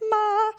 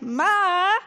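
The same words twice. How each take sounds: First: The pitch stays high and level throughout. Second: The pitch dips down and then rises. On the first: It means mother. "with a high pitch" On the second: It means hoarse. "like you're whining, with sort of your voice sweeping down and then back up higher"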